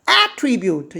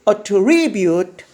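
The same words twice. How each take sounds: First: The stress is on the first syllable. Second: The stress is on the second syllable. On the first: It is a noun meaning a quality or characteristic. "똑같은 단어가 명사로 쓰이면 앞에 강세가 있습니다" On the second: It is a verb meaning to credit something to someone. "똑같은 단어가 동사로 쓰이면 강세가 뒤에 있고"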